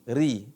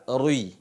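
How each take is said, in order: First: RI with a pure, thin i; light r and true i in "ri"; ri tipis. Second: RUI, a heavy r gliding into i; ri tebal. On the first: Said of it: "Huruf i benar-benar i". (ucapkan "ri" tipis, i benar-benar i) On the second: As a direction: thicken "ri" into a rounded "rui". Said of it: "Itu dibaca tebal namanya". (ucapkan "rui" tebal, salah untuk ri) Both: Shown as a demonstration.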